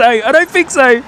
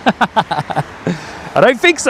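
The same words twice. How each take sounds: First: Higher and louder, a cheeky outburst; playful exclaim. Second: Slow, laughing through the words. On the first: Streamer joking with viewers about the mandarin, excited. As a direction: bounce it up with glee. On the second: Streamer laughing at peeling a mandarin before landing, amused. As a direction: chuckle it out, slowed right down. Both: Real, not acted.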